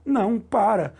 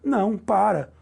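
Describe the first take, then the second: The two takes are said the same way.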